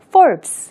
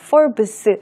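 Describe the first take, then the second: First: The b closes the syllable with no vowel. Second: A vowel sound follows the b. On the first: The speaker calls it right. "받침이 비읍 받침이 있는 것처럼 발음한다" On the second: The speaker calls it wrong. "하지 마시고요"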